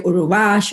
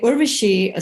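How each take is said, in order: First: The name has an extra middle vowel and ends 'ash'. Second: The name has no extra vowel and ends 'ashi'. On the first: This is how other people mangled the name. The speaker calls it wrong. "They would say Uruvash" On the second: This is the speaker's real name. The speaker calls it right. "But anyway, Urvashi"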